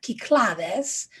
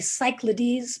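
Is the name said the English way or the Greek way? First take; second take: Greek; English. First: The name is said the way Greek speakers say it. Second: The name is said the way English speakers say it. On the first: "the Greeks pronounce that Kyklades" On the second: "we would say Cyclades"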